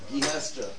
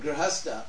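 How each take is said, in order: First: The r sound is moved near the end of the word. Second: The r sound comes right after the first consonant. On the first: "they take this R and they put it over here" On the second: "say the word Grihastha"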